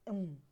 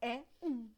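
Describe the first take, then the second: First: The two vowels merge into one syllable. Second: The two vowels stay in separate syllables. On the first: The speaker calls it wrong. "não fica um" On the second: The speaker calls it right. "A gente fala é um. A gente separa"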